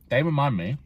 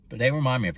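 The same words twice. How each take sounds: First: Talking with a mouth full of food; words round a bite of food. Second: Said in the usual way. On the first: Real, not acted. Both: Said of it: "sorry, I speak with my mouth full".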